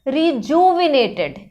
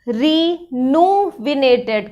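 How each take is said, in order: First: The second syllable starts with a 'j' sound. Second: The second syllable starts with an 'n' sound. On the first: The speaker calls it right. "तो it's better you call it रिजुविनेटेड" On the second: The speaker calls it wrong. "रिजू की जगह रीनूविनेटेड कर देते हैं"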